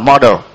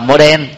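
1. Từ model được đọc theo kiểu chuẩn. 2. Từ model được đọc theo kiểu tiếng Việt. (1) "chứ còn đọc đúng là model" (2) "Ở Việt Nam mà gọi là model"

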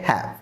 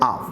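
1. শব্দটি h সহ পুরোপুরি উচ্চারণ করা হয়। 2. শব্দটি h বাদ দিয়ে সংক্ষেপে উচ্চারণ করা হয়। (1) "হ্যাভ বাক্যের শুরুতে আসলে হ্যাভ" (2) "যদি বাক্যের মাঝে আসে তাহলে তার উচ্চারণ করতে হবে আভ"

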